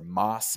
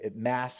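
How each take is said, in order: First: It is pronounced the European way. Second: It is pronounced the American way. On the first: This is how it is said in Europe. "if you're in Europe" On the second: This is how it is said in the United States. "if you're in the States"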